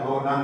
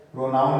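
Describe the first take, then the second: First: "प्रोनन" with a short "nun" second syllable; correct pronunciation. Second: "प्रोनाउन" with an "ow" diphthong in the second syllable; wrong pronunciation. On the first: Teacher correcting students, "प्रोनन" with short "nun". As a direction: say "प्रोनन" as pro-nun, no "ow" sound. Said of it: "होता है". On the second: Teacher showing students the mistaken form, "प्रोनाउन" with "nown". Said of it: "नहीं होता है". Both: Shown as a demonstration.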